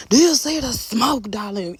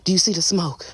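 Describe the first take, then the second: First: High, slow diva drawl on the smoke; sassy diva. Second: Said in the usual way. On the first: Pretend. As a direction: strut the line like a diva showing off. Diva sass to viewers.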